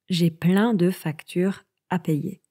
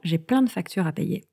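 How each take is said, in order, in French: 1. La phrase est prononcée lentement et en entier. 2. La phrase est prononcée rapidement, avec des sons réduits.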